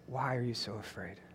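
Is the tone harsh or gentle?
gentle. It is said gently, like a comfort.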